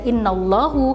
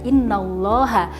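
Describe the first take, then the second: First: The word ends with a u vowel. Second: The word ends with an a vowel. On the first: The speaker calls it wrong. "tidak bisa dibaca innallahu" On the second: The speaker calls it right. "akan tetapi dibaca innallaha karena mubtada atau subjeknya yang di awal tadi berubah menjadi mansub"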